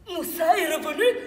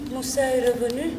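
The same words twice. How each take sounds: First: It is said with a surprised tone. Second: It is said with a sad tone.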